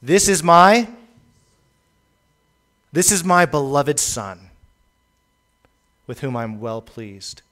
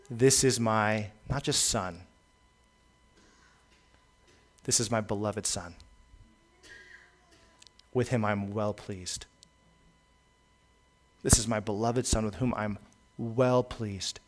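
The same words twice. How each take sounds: First: Voice from heaven. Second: Tender voice from heaven. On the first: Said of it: "a voice came out of heaven saying". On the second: Preacher voices the Father blessing his beloved Son: soft, tender pride. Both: Retold or imitated.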